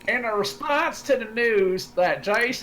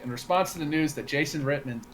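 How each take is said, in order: First: It is read in a put-on redneck accent. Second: It is read in his regular voice.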